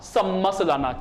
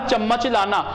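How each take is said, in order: First: The word is said with 's' sounds. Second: The word is said with 'ch' sounds. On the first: "Bangri बोली में बोलूं" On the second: "मैंने कहा चम्मच लाना"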